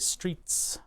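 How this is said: The word begins with a clear 'str' sound. "Whereas other people say streets"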